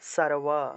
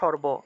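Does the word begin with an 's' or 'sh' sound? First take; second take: s; sh. First: The word begins with an s sound. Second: The word begins with an sh sound. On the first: This is the Sanskrit pronunciation. "সংস্কৃত উচ্চারণ করলে সারওয়া" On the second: This is the Bengali pronunciation. "বাংলায় বললে তো সর্ব"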